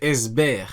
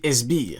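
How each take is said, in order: First: The last syllable has an 'eh' vowel. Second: The last syllable has an 'ee' vowel. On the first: This is the official pronunciation. "Mais en vrai, c'est Esber" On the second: This is the speaker's own habitual pronunciation. "vu que Esber, ça sonne bizarre, je dis Esbir"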